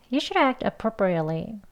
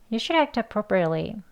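The two takes are said the same way.

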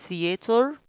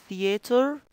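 No difference in how they are said.

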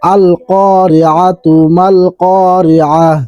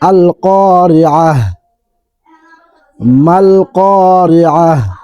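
First: It runs on, ending the first word in -atu. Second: It stops after the first word, ending in -ah. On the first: The reciter does not stop after the first phrase. "যদি না থামি তাহলে তা উচ্চারণ হবে" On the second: The reciter stops after the first phrase. "এখানে যদি আমি ওয়াকফ করি তাহলে উচ্চারণ হবে এইভাবে"

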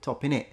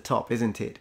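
First: The words 'isn't it' are squeezed into 'innit'. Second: The words 'isn't it' are said in full. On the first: "Became top in it" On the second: "It's the top, isn't it?"

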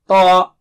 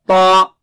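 Both takes have the same delivery.

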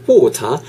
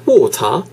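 Both takes have the same delivery.

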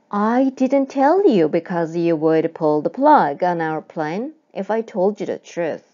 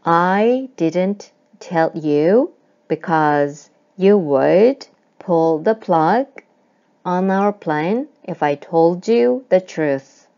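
First: The sentence is said fast. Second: The sentence is said slowly.

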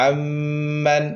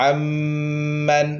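The two takes are said the same way.

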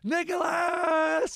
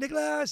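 First: It is screamed loudly and drawn out. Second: It is said short at a normal volume.

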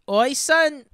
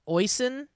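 First: It is said in a put-on Irish accent. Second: It is said in a plain, ordinary accent.

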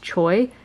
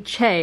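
First: The name is given an English-style pronunciation. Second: The name is given a Korean-style pronunciation. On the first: The speaker calls it wrong. "if you pronounce it according to English" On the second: The speaker calls it right. "But it's actually Che"

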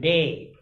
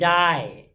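First: The vowel sounds like the one in 'day'. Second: The vowel sounds like the one in 'die'. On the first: "we say in American day" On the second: "they say die"

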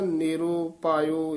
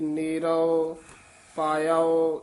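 First: The first word ends in a 'u' sound. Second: The first word ends in an 'o' sound. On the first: The speaker calls it wrong. "ਆਮ ਨਾ ... ਇਸ ਤਰ੍ਹਾਂ ਬੋਲ ਜਾਂਦੇ ਹਨ" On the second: The speaker calls it right. "ਇਸ ਤਰ੍ਹਾਂ ਉਚਾਰਨ ਕਰਨਾ ਹੈ"

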